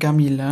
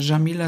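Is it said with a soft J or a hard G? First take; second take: hard G; soft J. First: It starts with a hard G, Egyptian style. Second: It starts with a soft J sound.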